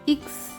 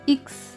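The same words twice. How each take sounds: Both takes have the same delivery.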